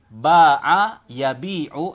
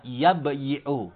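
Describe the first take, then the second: First: Yabi'u with a long, drawn-out bii; contracted verb form. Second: Yabyi'u with a consonant y before the i; underlying verb form. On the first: Teacher showing students the spoken verb, yabi'u with long ii. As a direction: stretch the bii in yabi'u, no separate y. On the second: Teacher revealing the original form, yabyi'u with y sounded. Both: Shown as a demonstration. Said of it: "aslinya adalah yabyi'u".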